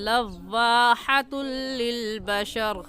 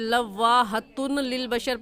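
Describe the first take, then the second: First: The n merges fully into the following l. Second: An n sound is heard before the l. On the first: The speaker calls it right. "सही है" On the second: The speaker calls it wrong. "पढ़ना गलत है"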